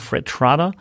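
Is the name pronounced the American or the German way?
German. The name is pronounced the German way.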